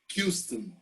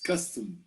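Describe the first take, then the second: First: It begins with a 'kyu' sound. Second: It begins with a plain 'kuh' sound. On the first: The speaker calls it wrong. "we don't say a Q" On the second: The speaker calls it right. "No, it's custom"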